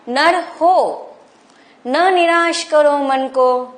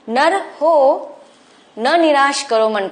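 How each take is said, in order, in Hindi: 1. यह पंक्ति 'nar ho' के बाद विराम के साथ पढ़ी जाती है। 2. यह पंक्ति 'nar ho' के बाद विराम के साथ पढ़ी जाती है।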